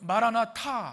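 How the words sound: It is said joined as one word.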